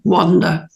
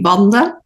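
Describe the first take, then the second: First: The first W sound is soft and gentle. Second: The first W sound is harsh and hard. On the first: This is how the name is said in the UK. "I've got used to the softer Wanda" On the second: This is how the name is said in Dutch. "So it's a much harsher W"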